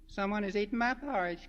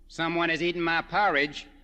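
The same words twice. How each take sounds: First: It is said in a squeaky, small voice. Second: It is said in a deep, booming voice. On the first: A small, young character is speaking. "cried Baby Bear in his squeaky little voice" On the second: A big, grown-up character is speaking. "boomed Papa Bear in his deep, deep voice"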